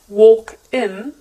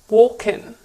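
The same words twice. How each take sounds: First: The two words are said separately. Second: The consonant runs straight into the vowel. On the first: "no longer walk in" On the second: "it's now walk in"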